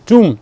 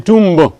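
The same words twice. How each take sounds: First: No B sound is heard at the end. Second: A B sound is heard at the end. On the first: The speaker calls it right. "It is tomb. It is silent" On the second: The speaker calls it wrong. "you don't say tomb"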